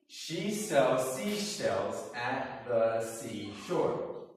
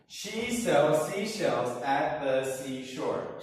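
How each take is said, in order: First: It is said at a moderate, slower pace. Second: It is said at a faster pace.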